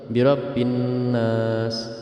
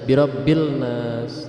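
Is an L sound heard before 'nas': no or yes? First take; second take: no; yes. First: The L merges into a doubled N. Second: An L sound is heard before nas. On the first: The speaker calls it right. "tapi langsung birabbin nas" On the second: The speaker calls it wrong. "tidak bisa dibaca birabbil nas"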